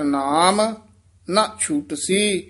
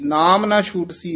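First: There is a pause after ਨਾਮ. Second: The words run together without a pause. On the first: The speaker calls it right. "ਇੱਥੇ ਥਮਕ ਹੈ" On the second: The speaker calls it wrong. "ਨਾਮ ਨਾ ਛੂਟਸੀ ਨਹੀਂ ਕਹਿਣਾ ਹੈ"

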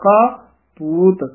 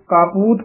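First: There is a short pause between the words. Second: The two words run together with no pause. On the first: The speaker calls it right. "ਇੱਥੇ ਥੋੜਾ ਜਿਹਾ ਰੁਕ ਕੇ ਬੋਲਣਾ ਹੈ" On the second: The speaker calls it wrong. "ਕਾਪੂਤ ਪਾਸ ਨਹੀਂ ਕਰਨਾ"

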